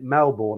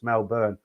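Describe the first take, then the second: First: The last syllable sounds like 'bourne'. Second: The last syllable does not sound like 'bourne'. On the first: The speaker calls it wrong. "I've been pronouncing it Melbourne" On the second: The speaker calls it right. "somebody said it's Melbourne"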